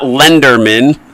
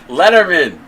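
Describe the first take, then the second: First: The middle has an n sound before d. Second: The middle has a t sound, no n. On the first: The speaker calls it wrong. "It's not Lenderman" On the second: The speaker calls it right.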